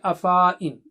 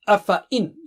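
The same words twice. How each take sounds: First: The marked alif is pronounced as a long vowel. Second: The marked alif is not pronounced. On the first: The speaker calls it wrong. "You don't say afa in" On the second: The speaker calls it right. "you don't read"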